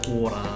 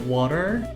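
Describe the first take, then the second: First: It is said in an Australian accent. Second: It is said in an American accent. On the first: "like Australian accent is like water" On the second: "That's more like American style"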